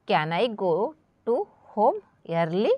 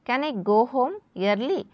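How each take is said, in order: First: Slow reading with a rise on "to" in "Can I go to home early?"; wrong version read out. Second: Slow reading with a rise on "home" in "Can I go home early?"; corrected version. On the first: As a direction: read "go to home" slowly, leaning on "to". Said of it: "here is a mistake". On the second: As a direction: read "go home" slowly, stressing "home". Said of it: "home के साथ to नहीं लगेगा बेटा". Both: Shown as a demonstration.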